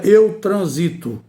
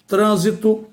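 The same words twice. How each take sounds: First: "transito" stressed on SI, tran-SI-to; stress on transito's middle syllable. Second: "trânsito" stressed on TRÂN, TRÂN-si-to; stress on trânsito's first syllable. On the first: Teacher showing students the verb form, "transito" stressed on SI. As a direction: lean slowly on the SI of "transito". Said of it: "Seria o eu transito". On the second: Teacher showing students the proparoxytone, "trânsito" stressed on TRÂN. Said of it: "é uma palavra proparoxítona". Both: Shown as a demonstration.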